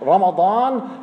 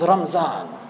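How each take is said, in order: First: The middle consonant is a d sound. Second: The middle consonant is a z sound. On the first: The speaker calls it right. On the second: The speaker calls it wrong.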